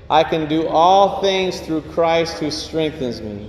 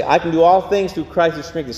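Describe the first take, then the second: First: Said in the usual way. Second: Fast preview of the verse; quick lead-in recitation; quick run-through. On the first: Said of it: "Say with me". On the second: Shown as a demonstration. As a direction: rattle it off once so they know it. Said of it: "Let's say, I'm gonna say".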